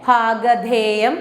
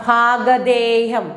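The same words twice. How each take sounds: No difference in how they are said.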